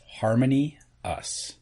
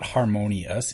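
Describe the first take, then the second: First: The final syllable us is stressed. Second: The final syllable is unstressed. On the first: "Emphasis us" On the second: "it's not harmonious"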